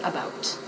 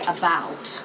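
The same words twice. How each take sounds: First: The ow vowel is clipped very short. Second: The ow vowel is drawn out longer. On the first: "we say about. It's just very short" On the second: "whereas an American might say about"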